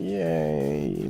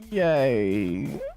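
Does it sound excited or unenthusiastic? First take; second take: unenthusiastic; excited. First: It sounds flat and unenthusiastic. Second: It sounds excited and lively.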